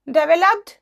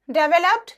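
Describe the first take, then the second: No difference in how they are said.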